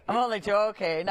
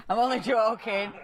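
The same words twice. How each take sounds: First: Said in the usual way. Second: Laughing it off, higher and bright. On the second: Real, not acted. Host teasing the channel, laughing it off. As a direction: giggle through the joke.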